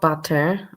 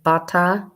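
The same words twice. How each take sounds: First: It is said in a standard accent. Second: It is said in a Brooklyn accent. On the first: "not butter" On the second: "Such a Brooklyn way"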